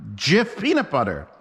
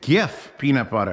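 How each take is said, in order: First: The first word starts with a j sound. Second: The first word starts with a hard g. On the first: The speaker calls it wrong. "spelled with a J, pronounced Jif" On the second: The speaker calls it right. "you spell it with a G"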